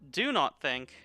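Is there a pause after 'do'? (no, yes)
no. There is no pause after 'do'. Refrain from thinking. "Not do not think"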